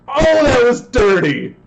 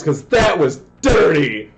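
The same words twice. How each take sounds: First: Even higher, slow, loud cry of disbelief; stretched excited yell. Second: Loud, high call of disbelief; excited yell. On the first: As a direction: drag it out in amazement. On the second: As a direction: shout it out, thrilled. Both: Real, not acted. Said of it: "I am yelling super loud".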